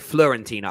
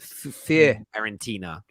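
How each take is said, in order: First: The name starts with an F-L sound. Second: The name starts with an F-I sound. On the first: The speaker calls it wrong. "I always say Florentina. I don't even know why. And now I know it's wrong" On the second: The speaker calls it right. "Fiorentina, right?"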